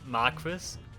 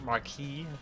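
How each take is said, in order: First: It is said with English sounds, letters voiced. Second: It is said with French sounds, letters silent. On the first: The speaker calls it wrong. "They always pronounce it Marquis" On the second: The speaker calls it right. "it's actually pronounced Marquis"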